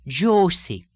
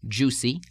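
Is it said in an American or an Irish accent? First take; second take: Irish; American. First: It is said with an Irish lilting two-stage oo vowel. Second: It is said with a plain American oo vowel.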